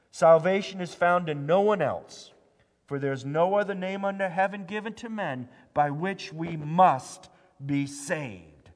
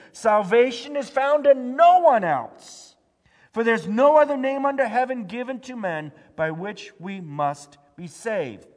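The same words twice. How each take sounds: First: Said in the usual way. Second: Loud proclaimed verse. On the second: Acted. Pastor proclaiming Peter's words to the church, loud. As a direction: thunder it out like Peter before the council.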